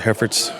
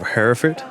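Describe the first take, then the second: First: It is said with an American pronunciation. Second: It is said with a British pronunciation.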